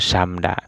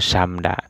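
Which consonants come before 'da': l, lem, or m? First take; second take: m; m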